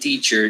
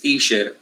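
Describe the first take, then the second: First: The middle sound is a ch with a t. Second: The middle sound is a soft sh. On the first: The speaker calls it right. "has to be with the T in front. So always say teacher" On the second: The speaker calls it wrong. "Don't don't tell your students teacher"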